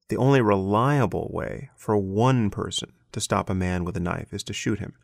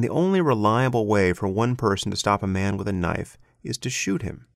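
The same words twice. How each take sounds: First: Reliable and one are clearly stressed. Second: Reliable and one are not specially stressed.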